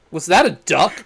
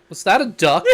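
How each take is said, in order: First: Said in the usual way. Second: A quoted question with a laugh in it; a bystander's question, laughing as it's said; laughing through the quote. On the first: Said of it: "It's like". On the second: Retold or imitated. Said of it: "the civilian's like".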